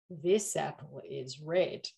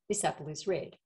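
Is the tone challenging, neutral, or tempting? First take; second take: tempting; neutral. First: It is said in a tempting, suggestive way. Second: It is said as plain, neutral information.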